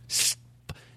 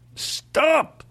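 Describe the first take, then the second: First: It is said calmly. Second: It is said aggressively.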